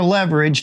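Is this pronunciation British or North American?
North American. It is said the North American way. "North American"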